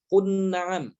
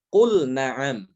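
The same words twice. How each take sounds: First: Kun na'am with the lam merged into the n; wrong merged lam. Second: Qul na'am slow, with the l said clearly before the n; clear lam. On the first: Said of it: "Tidak boleh dibaca". (kun na'am, lam dilebur ke nun (salah)) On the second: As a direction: stress qul and hold its l distinct. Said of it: "tapi qul na'am". (qul na'am dengan lam jelas, pelan) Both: Shown as a demonstration.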